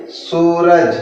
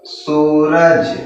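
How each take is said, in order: First: Said in the usual way. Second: Drawn-out reading. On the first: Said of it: "क्या होगा ये?". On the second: Shown as a demonstration. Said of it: "क्या पढ़ेंगे इसको?".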